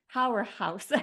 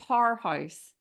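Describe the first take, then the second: First: Powerhouse with a clear r, as the English say it; a light go at English powerhouse; English pronunciation try. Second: Irish-accented powerhouse; Irish pronunciation. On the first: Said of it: "how do you say it in English?". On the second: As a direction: say powerhouse as you would at home in Ireland. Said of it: "That's my Irish accent". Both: Shown as a demonstration.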